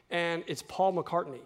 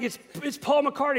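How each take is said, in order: First: Said in the usual way. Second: Much higher, breathless excited name-drop; starstruck son. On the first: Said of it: "He says he's sitting on the airplane". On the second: Retold or imitated. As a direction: stammer the name out in awe. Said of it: "he's like".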